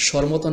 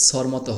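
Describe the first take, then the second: First: Teacher naming the sh sound in "স্বরমতো". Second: "স্বরমতো" begun with a dental s, "sor moto"; teacher naming the s sound in "স্বরমতো". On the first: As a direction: say the first consonant of "স্বরমতো" as sh. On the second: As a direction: say the first consonant of "স্বরমতো" as s, not sh. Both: Shown as a demonstration. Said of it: "এই দুইটা স এর উচ্চারণ".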